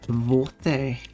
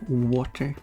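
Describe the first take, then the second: First: It starts with a V sound, Swedish-accented. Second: It starts with a W sound, English-style.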